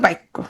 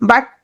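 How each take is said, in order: First: It is said with an inserted 'i' sound. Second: It is said without an inserted 'i' sound. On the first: "মাঝখানে একটা কি ধ্বনি আসলো? ই বা উদ্ধনি আসবে" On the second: "ই বা উদ্ধনি নাই"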